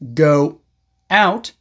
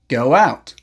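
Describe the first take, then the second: First: The words are separated by a break. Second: A small w sound links the words. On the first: "Instead of saying" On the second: "connect them with a small W sound"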